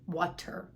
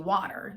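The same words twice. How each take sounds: First: The middle T is a clear T. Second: The middle T is a quick flap. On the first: "instead of" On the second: "with a flap T, like um, the way uh, we say"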